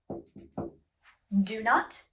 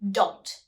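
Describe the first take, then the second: First: Two separate words are said fully and apart. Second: The words are pushed together into one syllable. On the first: It sounds very formal. "do not is very formal and very separated" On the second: It is the usual everyday form. "we say don't"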